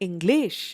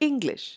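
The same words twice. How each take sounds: First: The stress is on the second syllable. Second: The stress is on the first syllable. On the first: The speaker calls it wrong. "You don't say English" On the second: The speaker calls it right. "take the stress on the first syllable"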